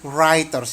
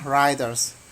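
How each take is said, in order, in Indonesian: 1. Kata ini diawali dengan bunyi W. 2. Kata ini diawali dengan bunyi R. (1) "bukan writers ya" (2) "Mulai dari huruf R aja"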